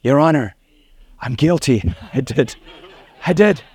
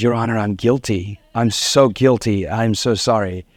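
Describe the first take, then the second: First: A lightly laughing, sheepish confession. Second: Head bowed, humbly sorry; contrite plea. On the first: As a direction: own up with a giggle. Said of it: "and I was". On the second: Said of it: "I bowed my head". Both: Retold or imitated.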